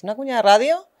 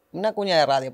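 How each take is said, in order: First: Quick, upbeat radio spot read. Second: Said in the usual way. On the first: Shown as a demonstration. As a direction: sell it like a radio jingle. (voz de cuña de radio, rápida y animada) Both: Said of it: "oye, queremos una cuña".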